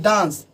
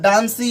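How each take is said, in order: First: The word ends on a consonant sound. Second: The word ends with an added vowel sound. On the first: The speaker calls it right. "इसका उच्चारण जो करेंगे वो डांस की तरह" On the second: The speaker calls it wrong. "डांसी या डांसे बोलेंगे तो वो गलत हो जाएगा"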